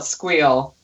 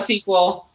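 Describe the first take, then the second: First: It is said as one word, squeal. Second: It is spelled out letter by letter. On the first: "or you could call it squeal. And one is much funnier" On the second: "you could call it SQL"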